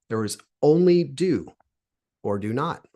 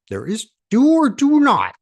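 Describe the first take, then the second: First: It is said in his normal voice. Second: It is said in a Yoda impression.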